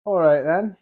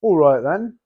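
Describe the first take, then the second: First: A slipped-in British "All right then", higher and louder with a rising end; a quick, chirpy British "All right then"; accidental British accent on "All right then". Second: Put-on repeating "All right then" in a playful British accent, higher and much louder with a rising end; hammed-up British "All right then"; playful British accent, deliberately repeated; mock British accent. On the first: Real, not acted. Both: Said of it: "I just sounded British right there".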